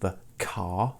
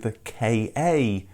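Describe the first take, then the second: First: The name is said as one word. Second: The name is spelled out letter by letter. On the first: "Is it the car" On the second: "or simply the K A?"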